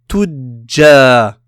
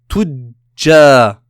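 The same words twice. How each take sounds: First: The j sound is held and doubled. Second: The j sound is held and doubled.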